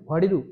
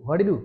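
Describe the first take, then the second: Both takes have the same delivery.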